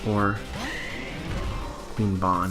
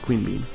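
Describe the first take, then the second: First: The second word has an 'aw' vowel. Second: The second word has an 'ee' vowel.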